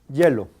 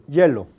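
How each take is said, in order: Both takes have the same delivery.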